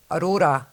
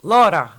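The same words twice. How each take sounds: First: AURORA in three syllables, "a-RO-ra"; name as intended. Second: LAURA loud and higher, two syllables; misheard as Laura. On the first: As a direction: correct them with the full name AURORA. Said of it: "I'm like". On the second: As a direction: insist on the misheard name, a punched "LAW-ra". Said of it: "they're like". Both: Retold or imitated.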